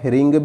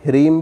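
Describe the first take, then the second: First: The word ends with an ng sound. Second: The word ends with an m sound. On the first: "ह्रिंग भी सही है" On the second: "ह्रीम भी सही है"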